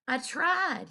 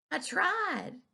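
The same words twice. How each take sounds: First: Anguished. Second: Breaking. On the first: Repeated emotional line. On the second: Repeated, breaking. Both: A narrator's reading.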